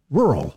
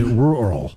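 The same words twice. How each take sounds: First: Said in the usual way. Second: "rural" slowly split as rule-Earl; two-part pronunciation. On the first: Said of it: "So you say rural". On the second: Shown as a demonstration. Host teaching a trick for a hard word, "rural" split into rule-Earl. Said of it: "it's kinda like rule and then Earl".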